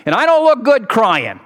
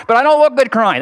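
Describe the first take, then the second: First: Said in the usual way. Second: "look" pushed louder and higher; joking emphasis. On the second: Shown as a demonstration. Preacher jokes to the congregation, leaning on "look". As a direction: lean on "look" for the punchline. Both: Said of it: "That's supposed to be a joke".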